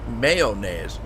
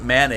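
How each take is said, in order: First: The word begins with a clear may-o sound. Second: The word begins with a man sound. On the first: The speaker calls it right. "It's called mayonnaise" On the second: The speaker calls it wrong. "she always calls it mayonnaise"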